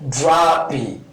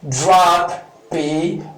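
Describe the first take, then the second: First: The two P sounds merge into one. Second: Both P sounds are pronounced separately. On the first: The speaker calls it right. "we just gotta say drop P. Then you link" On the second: The speaker calls it wrong. "Instead of saying drop P"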